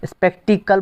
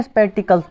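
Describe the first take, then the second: First: "स्पेक्टिकल" said without the final s, rising as if questioning; "स्पेक्टिकल" with no s, rising tune; singular without s. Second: "स्पेक्टिकल्स" with a clear final s, falling firmly; "स्पेक्टिकल्स" with a crisp s, falling tune; plural with s. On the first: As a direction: drop the s on "स्पेक्टिकल", lift the end. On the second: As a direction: sound the s on "स्पेक्टिकल्स", settle it down. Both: Shown as a demonstration. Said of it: "स्पेक्टिकल्स बोलते हैं ना".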